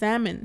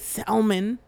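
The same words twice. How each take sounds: First: The L in the word is silent. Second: The L in the word is sounded. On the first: The speaker calls it right. "It's salmon" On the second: The speaker calls it wrong. "But you don't say salmon"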